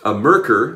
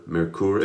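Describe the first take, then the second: First: The name is given an American English pronunciation. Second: The name is given an attempted German pronunciation. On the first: This is how people in the United States say it. "as they say here in the United States" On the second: This is how it is said in its home country. "I think it's Merkur, Merkur. If you're in Germany, please make sure I'm mispronouncing that correctly"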